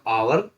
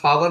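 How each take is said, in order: First: The word starts with a vowel sound. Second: The word starts with a sounded h. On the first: The speaker calls it right. "होगा आवर" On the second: The speaker calls it wrong. "हावर ना हो के"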